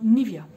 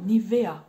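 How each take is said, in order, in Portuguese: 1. Ela é lida em voz alta do jeito português. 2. Ela é pronunciada do jeito alemão. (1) "vocês iam olhar e falaram Nivea. Não" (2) "esqueçam o português e deixam só o auditivo falar"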